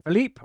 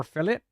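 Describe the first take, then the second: First: Philippe with a long ee ending; Philippe pronunciation. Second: Philip with a short i ending; Philip pronunciation. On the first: Weighing how to read a viewer's name, Philippe with long ee. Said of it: "I'm gonna say Philippe". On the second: Weighing how to read a viewer's name, Philip with short i. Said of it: "Philippe or Philip?". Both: Shown as a demonstration.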